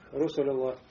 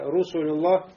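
First: The vowel is said with unrounded lips, like 'a'. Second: The vowel is said with rounded lips, like 'u'. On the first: The speaker calls it wrong. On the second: The speaker calls it right.

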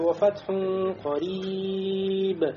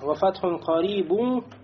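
First: The long vowel lasts four counts, ending dropped. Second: The long vowel lasts two counts, word ending kept. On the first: The reciter stops on this word. "А если бы остановили, ... то уже тянули бы, да, как минимум четыре гласовки" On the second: The word is joined to the next one. "здесь тянется всего лишь две гласовки"

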